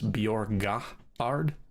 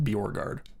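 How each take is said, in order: First: It is said with a traditional Norwegian pronunciation. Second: It is said with an Americanized pronunciation. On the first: This is how the name is supposed to be said. "if in traditional pronunciation" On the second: This is how the family says the name. "we're okay with the Americanized version of it"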